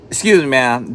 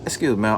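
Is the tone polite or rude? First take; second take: rude; polite. First: It is said with a sharp, rude tone. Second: It is said with a calm, polite tone. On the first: The speaker is annoyed and confrontational. The speaker calls it wrong. "I could have said it with a little" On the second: The speaker is being courteous and friendly. The speaker calls it right. "Just like that"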